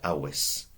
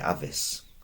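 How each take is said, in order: First: The middle consonant is a W sound. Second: The middle consonant is a V sound. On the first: The speaker calls it right. "I said awis. ... was a W sound" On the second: The speaker calls it wrong. "I didn't say avis"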